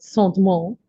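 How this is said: The word is said with French pronunciation.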